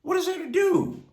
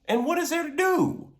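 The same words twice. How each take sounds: First: Asked much higher and pleading; a preacher's high pleading question; pleading rhetorical question. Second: Said in the usual way. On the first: Acted. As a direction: throw the question up high, searching.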